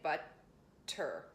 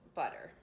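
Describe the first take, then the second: First: The T is strong with a stop. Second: The T is soft and barely touched. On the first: The speaker calls it wrong. "It's not a strong T and we don't stop. We don't say butter" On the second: The speaker calls it right. "just not strong and hardly at all"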